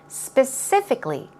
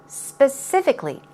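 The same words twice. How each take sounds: Both takes have the same delivery.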